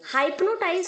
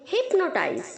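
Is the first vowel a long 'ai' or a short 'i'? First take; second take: long ai; short i. First: The first vowel is a long 'ai' sound. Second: The first vowel is a short 'i' sound. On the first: The speaker calls it wrong. "हाइप्नोटाइज नहीं बोलेंगे आप" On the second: The speaker calls it right. "H के आगे वाई है उसे हम आई की तरह प्रोनाउंस करेंगे"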